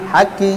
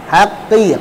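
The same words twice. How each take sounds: First: The q is weak and sounds like a k. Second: The q is firm and deep in the throat. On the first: The speaker calls it wrong. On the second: The speaker calls it right.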